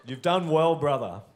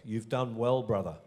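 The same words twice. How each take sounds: First: Put-on louder, higher go at a Welsh accent; hammy attempted Welsh accent. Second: Lightly attempted Welsh accent; a hint of Welsh in the voice. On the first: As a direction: have another try at Welsh, projected with a laugh. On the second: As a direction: try a mild Welsh lilt. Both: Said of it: "That was said with a Welsh accent".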